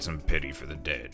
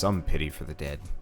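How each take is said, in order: First: It is said in a gruff, old-sounding voice. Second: It is said in an ordinary, natural voice. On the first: The speaker calls it right. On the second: The speaker calls it wrong.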